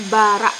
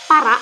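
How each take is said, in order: First: Bara with the p swapped for a b; bara, voiced b instead of p. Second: Said in the usual way. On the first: Shown as a demonstration. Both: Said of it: "pengucapannya menjadi bara".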